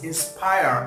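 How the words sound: It is said in a British accent. "in British English"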